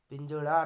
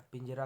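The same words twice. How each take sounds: First: पिंजड़ा with a loud retroflex 'ṛaa'; wrong flapped r. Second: Said in the usual way. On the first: Shown as a demonstration. Teacher rejecting a form, पिंजड़ा loud with retroflex r. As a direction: punch the flap ending पिंजड़ा. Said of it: "नहीं होता". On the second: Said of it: "होता है".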